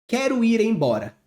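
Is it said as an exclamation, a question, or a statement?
statement. It is said as a plain statement. It simply states a fact. "Ponto final. É uma afirmação"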